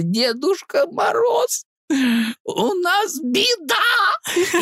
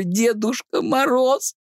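First: Very high, very slow wail through laughter; laughing fake sob. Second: High, slow, laughing fake cry; laughing mock cry. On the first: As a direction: wail the news, cracking up. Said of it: "И я тут, знаешь, просто раскалываюсь". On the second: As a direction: cry out while cracking up. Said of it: "Я смеюсь, а как будто, ну, делаю вид, что плачу".

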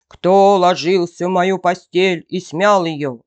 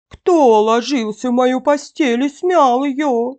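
First: Loud big-bear roar; fearsome bear roar. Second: Higher-pitched, loud bear growl; mother-bear growl. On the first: Big bear finds his bed rumpled, fearsome roar. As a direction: roar it as the huge menacing bear. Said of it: "заревел Михаил Иваныч страшным голосом". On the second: Mother bear finds her bed rumpled, higher growl. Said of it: "зарычала Настасья Петровна не так громко". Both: A narrator's reading.

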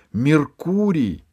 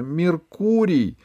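First: High, drawn-out call of the name; shouted name. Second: High, slow call of the name; high drawn-out Меркурий; shouted name. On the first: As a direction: call out to him across the clearing. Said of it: "закричала Алиса". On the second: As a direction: call him again, running towards him. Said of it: "закричала она снова". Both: A narrator's reading.

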